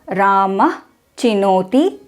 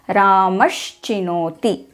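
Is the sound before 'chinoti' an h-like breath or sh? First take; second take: h; sh. First: The word ends in a breathy h before chinoti. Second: The word ends in an sh sound before chinoti.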